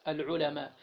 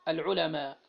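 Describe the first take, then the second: No difference in how they are said.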